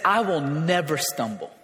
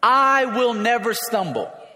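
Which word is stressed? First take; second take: none; I. First: No special stress falls on I. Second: The stress falls on I.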